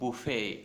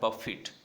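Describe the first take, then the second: First: It ends with an 'ay' sound, no final t. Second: It ends with an 'it' sound, final t heard. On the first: A meal where guests serve themselves. "उसको बोलते हैं बुफे" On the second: To strike against something forcefully. "तब इसका pronunciation होता है बफिट"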